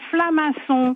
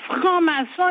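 First: The word begins with 'fla' and an l. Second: The word begins with 'fran' and an r.

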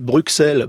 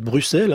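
First: The middle consonant sounds like 'ks'. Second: The middle consonant sounds like 'ss'. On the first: The speaker calls it wrong. "Bon, non, c'est Bruxelles" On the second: The speaker calls it right. "c'est deux S"

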